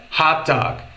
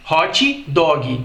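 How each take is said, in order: First: "hot dog" with clipped t and g, no added i; English hot dog. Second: "hot dog" as hótchi dógui with added i; slow "hot dog" Brazilian style, extra i. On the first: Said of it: "Quando o correto é hot dog". ("hot dog" em inglês, sem o i final) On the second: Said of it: "tendência que a gente tem de inserir a letra I". ("hot dog" à brasileira, róchi dógui) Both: Shown as a demonstration.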